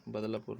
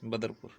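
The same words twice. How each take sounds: First: बदलापुर said with an L and a long aa, "bad-la-pur"; the mistaken बदलापुर, L in place of R; mistaken name form. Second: बदरपुर said with an R, "ba-dar-pur"; the corrected बदरपुर, R and no "la"; corrected name form. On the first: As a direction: say बदलापुर with "la" in the middle. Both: Shown as a demonstration. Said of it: "बदलापुर नहीं".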